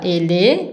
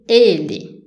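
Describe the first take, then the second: First: The stress is on the second syllable. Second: The stress is on the first syllable. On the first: The speaker calls it wrong. "On ne dit pas ele" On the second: The speaker calls it right. "la syllabe forte, c'est les premières E"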